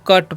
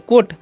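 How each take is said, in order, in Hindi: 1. स्वर 'cut' में 'uh' की तरह बोला जाता है। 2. स्वर 'coat' में 'o' की तरह बोला जाता है। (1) "यू का उच्चारण यहाँ पर अ होता है" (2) "कोट नहीं पढ़ना है"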